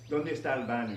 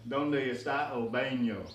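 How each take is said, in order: First: The vowels sound like native Spanish. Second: The vowels sound like American English. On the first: The speaker calls it right. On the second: The speaker calls it wrong.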